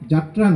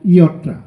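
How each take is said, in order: First: The name begins with a 'j' sound. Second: The name begins with a 'y' sound. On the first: The speaker calls it wrong. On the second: The speaker calls it right.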